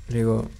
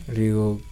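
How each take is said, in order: No difference in how they are said.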